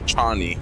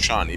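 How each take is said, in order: First: The name begins with a ch sound. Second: The name begins with a sh sound. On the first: This is the original form of the name. "the proper pronunciation is Chani" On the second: This is the altered form used to be relatable. "they turned it into Shani"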